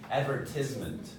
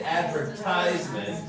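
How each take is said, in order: First: "advertisement" with TIS, short I. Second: "advertisement" with TISE stressed like "ties"; strong I. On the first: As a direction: say "advertisement" as ad-VER-tiz-ment. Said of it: "But then they say". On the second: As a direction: punch the long I in "advertisement". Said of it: "it's a strong I". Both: Shown as a demonstration.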